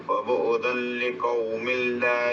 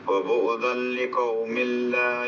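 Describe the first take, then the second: The two takes are said the same way.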